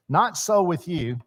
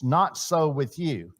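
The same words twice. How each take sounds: First: "Not" hit first, higher; "Not so with you" with weight on "Not"; stress on Not. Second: Said in the usual way. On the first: Shown as a demonstration. Preacher stressing "Not" for the congregation. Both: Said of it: "if you want to emphasize something".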